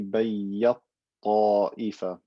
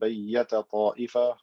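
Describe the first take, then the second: First: The first t merges fully into the next. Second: The first t sound is kept with a vowel. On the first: "merging the ta completely into the ta" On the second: "we said bayyata ta'ifa"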